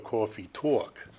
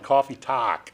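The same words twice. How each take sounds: First: It is said with a Brooklyn accent. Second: It is said with a Boston accent. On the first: The speaker calls it right. "got to go coffee talk" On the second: The speaker calls it wrong. "you were doing the Boston way"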